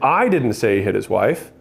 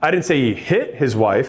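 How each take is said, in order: First: The stress is on didn't. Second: The stress is on hit.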